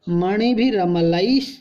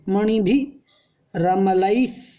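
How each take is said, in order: First: It is said as one joined unit, no break. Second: It is split into separate parts with a break.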